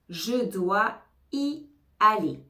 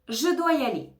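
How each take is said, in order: First: It is said slowly and carefully. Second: It is said quickly with the words linked.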